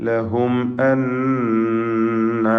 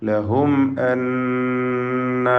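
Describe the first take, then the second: Both takes have the same delivery.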